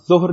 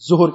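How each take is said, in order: First: It begins with a tongue-between-teeth 'dh'-like sound. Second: It begins with a plain hissing 'z' sound. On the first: The speaker calls it right. "ہم ظہر نہیں کہتے" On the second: The speaker calls it wrong. "ظہر کہتے عام طور پہ"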